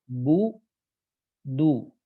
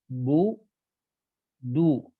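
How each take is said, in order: Both takes have the same delivery.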